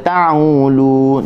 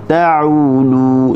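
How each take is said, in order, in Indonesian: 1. Bunyi 'u' naik ke dalam hidung. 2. Bunyi 'u' berasal dari tengah tenggorokan. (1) "Jangan baca ta'ulu. Tak boleh. U ni dia akan naik ke hidung lah" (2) "u daripada halqum tengah"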